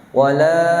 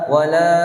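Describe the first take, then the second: The two takes are said the same way.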